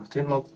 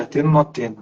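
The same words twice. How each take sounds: First: Same words again, dropped much softer; quiet repeat. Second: Said in the usual way. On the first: Retold or imitated. Man holding gun, asking himself again, much softer. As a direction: let it sink almost to nothing, torn.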